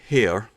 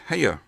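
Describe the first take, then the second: First: The vowel is a single, plain sound. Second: The vowel glides into a drawn-out diphthong. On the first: "which is one syllable" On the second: "if you come from Tennessee ... You tend to put this diphthong sound"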